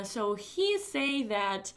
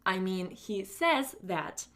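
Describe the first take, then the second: First: Demo mistake. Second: Demo self-correction. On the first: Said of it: "For example, you say". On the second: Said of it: "and then you say the same thing, but with a corrected mistake". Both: Shown as a demonstration.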